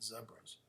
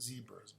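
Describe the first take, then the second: First: It uses the British pronunciation of the word. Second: It uses a non-British pronunciation of the word. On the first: "in England they call these" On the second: "not zebras"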